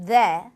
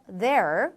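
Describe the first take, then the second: First: There ending open, no R; British there, R dropped; 영국식 there; British pronunciation. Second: There with a final American R; 미국식 there; American pronunciation. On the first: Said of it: "영국 영어에서는 there". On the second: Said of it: "미국 영어에서 there". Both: Shown as a demonstration.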